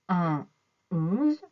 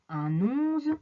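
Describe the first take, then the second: First: There is a pause between the two words. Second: The n links straight into the next word. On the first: The speaker calls it right. "demandent aussi une pause entre les deux. On dit un onze" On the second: The speaker calls it wrong. "On ne dit pas un onze"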